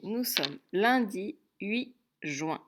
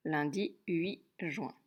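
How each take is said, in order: First: Slow dictation, each word apart; dictation pace. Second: Slow, deliberate repeat; dictation repeat. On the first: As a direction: dictate it slowly for children to write. (dictée lente, mot par mot) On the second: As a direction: say it again slowly for writing. (répétition lente, bien détachée) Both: Shown as a demonstration.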